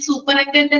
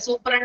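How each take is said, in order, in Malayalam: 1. വാക്കിലെ ഓരോ സിലബിളും ഉച്ചരിക്കുന്നു. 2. വാക്ക് കുറഞ്ഞ സിലബിളുകളിലേക്ക് ചുരുക്കിയിരിക്കുന്നു. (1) "ഞാൻ സൂപ്പറിൻറ്റൻഡന്റ് എന്ന് പറയുന്നില്ല" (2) "എളുപ്പത്തിൽ പ്രൊനൗൺസ് ചെയ്യാൻ വേണ്ടിയിട്ട്"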